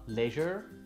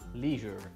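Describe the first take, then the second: First: It is said in a British accent. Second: It is said in an American accent. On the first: "Chez les Anglais ce sera leisure" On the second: "chez les Américains ce sera leisure"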